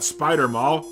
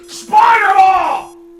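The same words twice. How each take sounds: First: It is said flatly, without emphasis. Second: It is said excitedly, like an exclamation.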